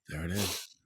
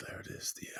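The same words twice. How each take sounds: First: Said in the usual way. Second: Whispered repeat. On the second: Shown as a demonstration.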